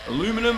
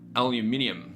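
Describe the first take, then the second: First: The word is pronounced the American way. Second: The word is pronounced the Australian way. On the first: "I guess some Americans would call it" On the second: "Australians call it aluminium"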